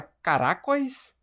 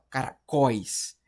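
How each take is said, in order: First: CARACÓIS as ca-RÁ-cois, questioning; wrong-syllable stress. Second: CARACÓIS as cara-CÓIS, firm falling end; last-syllable stress. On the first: Teacher testing a wrong option, CARACÓIS stressed ca-RÁ-cois. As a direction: hit RA in CARACÓIS and leave cois weak. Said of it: "a gente fala caracóis". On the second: Teacher giving right option, CARACÓIS stressed cara-CÓIS. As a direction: split off and land on CÓIS in CARACÓIS. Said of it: "Sílaba tônica é a última". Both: Shown as a demonstration.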